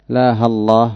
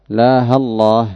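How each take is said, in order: No difference in how they are said.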